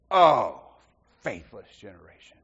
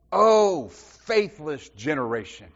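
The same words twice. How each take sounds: First: Weary exasperation. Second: A loud exasperated "Oh", then "faithless generation" drawn out slowly and falling; exasperated quote. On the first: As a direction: let "faithless generation" sink into a tired sigh. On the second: Jesus scolding the faithless crowd, exasperated. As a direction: throw up your hands at "Oh", sigh out the rest. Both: Retold or imitated. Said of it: "It is a statement of exasperation".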